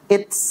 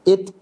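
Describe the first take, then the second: First: The final t is followed by an s hiss. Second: The final t is released with a short burst. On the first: The speaker calls it wrong. "Bukan at, it's, uts. Bukan" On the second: The speaker calls it right. "Kita tekan at, it, ut. Bocor dengan sendiri. Ya, meletup dia"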